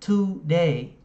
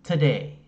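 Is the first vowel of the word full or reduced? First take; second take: full; reduced. First: The first vowel is a full, clear vowel. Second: The first vowel is reduced to a schwa. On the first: "Có một số người thì phát âm là today" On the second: "chúng ta nói nhanh á, thì nó làm ơ"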